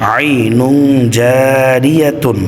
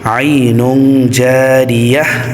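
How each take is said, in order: First: The last word ends with a full tun. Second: The last word ends with an h sound. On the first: The word is not at the end of a verse. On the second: The reader stops at the end of the verse.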